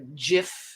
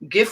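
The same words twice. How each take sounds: First: The word begins with a J sound. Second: The word begins with a hard G sound. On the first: "GIF with a J" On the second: "GIF with a G"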